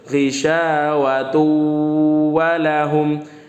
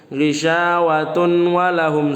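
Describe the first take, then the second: First: The n merges into a doubled w sound. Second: The n sound is pronounced clearly before the w. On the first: The speaker calls it right. "Tanwinnya dileburkan ke huruf waw, wawnya dibaca tasdid" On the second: The speaker calls it wrong. "salah, salah"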